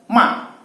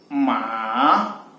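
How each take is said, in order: First: The pitch drops sharply and forcefully. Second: The pitch dips down, then rises. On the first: It means to scold. "nada keempat dia seperti menghentakkan ya, seakan-akan kita marah" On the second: It means horse. "nada ketiga bisa kita lihat dia turun kemudian naik"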